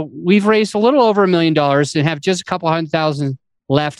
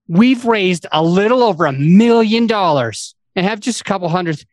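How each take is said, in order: First: The stress falls on little over and just. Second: The stress falls on million.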